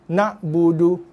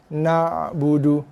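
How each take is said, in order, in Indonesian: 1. Ain itu keras dan terputus seperti hentian glotal. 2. Ain itu lembut, dilepas, dengan sedikit gema. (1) "membacakan Ain tu dengan sifat keras. Sifat jahar dan syiddah" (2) "Ain dia tak keras. Ha, dia bereko sikit. Ha, dia lepas suara"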